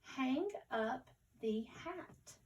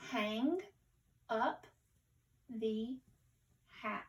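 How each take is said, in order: First: Slow but connected, the words joined in one sentence; more fluent reading. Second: One word at a time, spaced out for beginning readers; careful, word by word. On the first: Teacher rereading the sentence with pupils, more fluently. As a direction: read it smoothly at a beginner's slow pace. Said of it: "let's read it again more fluently". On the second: Teacher modelling careful reading for pupils, word by word. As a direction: read slowly with a clear pause after each word. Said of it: "read it again more fluently". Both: Shown as a demonstration.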